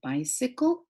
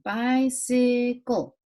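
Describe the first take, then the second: First: Said in the usual way. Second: Bicycle slowly broken into bi, cy, cle; syllable by syllable. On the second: Shown as a demonstration. Teacher showing pupils the special sounds, bicycle slowly sounded out. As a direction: stretch each syllable of bicycle separately. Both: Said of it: "I, after the C".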